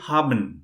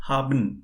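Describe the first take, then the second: No difference in how they are said.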